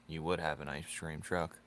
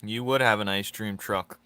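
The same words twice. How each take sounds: First: Muttered tease. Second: Emphatic tease. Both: Acted. Teasing viewer, said twice.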